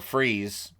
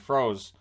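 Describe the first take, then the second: First: The surname is said with an 'ee' vowel. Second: The surname is said with an 'oh' vowel. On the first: The speaker calls it right. "or Freeze" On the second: The speaker calls it wrong. "We always pronounced it Froze. Now I realize we were all wrong"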